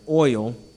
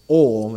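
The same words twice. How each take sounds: First: The word is said in a careful standard pronunciation. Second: The word is said in a casual local pronunciation. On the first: "let me say it right" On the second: "as I say"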